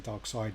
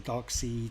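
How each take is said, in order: First: The second syllable rhymes with 'side'. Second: The second syllable rhymes with 'seed'. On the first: This is how people in England say it. "I think in England we say dark side" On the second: This is how Americans say it. "I know that the kind of Americans uh, say dark seed"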